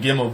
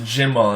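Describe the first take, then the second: First: The word begins with a hard G sound. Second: The word begins with a soft J sound.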